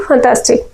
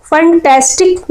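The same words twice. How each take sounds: First: फैंटास्टिक with weak first vowel and open "taa"; softened FANTASTIC. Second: Said in the usual way. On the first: Shown as a demonstration. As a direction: say फैंटास्टिक as "fun-TAAS-tik". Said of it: "क्या पढ़ना?". (फैंटास्टिक को "फन्तास्टिक" जैसा बोलें) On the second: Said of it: "फैंटास्टिक नहीं पढ़ना है".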